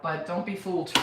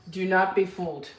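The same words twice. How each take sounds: First: Said in the usual way. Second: "not" pulled apart from "do" and leaned on; stress on NOT. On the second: Real, not acted. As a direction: warn with weight on "not".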